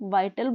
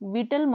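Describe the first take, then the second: First: The first vowel is an 'eye' sound. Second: The first vowel is a short 'ih' sound. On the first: The speaker calls it right. "Please इसको वाइटल बोलना है" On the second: The speaker calls it wrong. "इसको please विटल मत बोलना"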